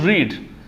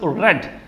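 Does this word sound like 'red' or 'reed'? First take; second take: reed; red. First: The word has a long ee vowel. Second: The word has a short e vowel. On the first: The speaker calls it wrong. "not as read" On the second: The speaker calls it right. "We pronounce this word as read"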